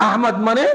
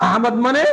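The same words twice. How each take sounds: The two takes are said the same way.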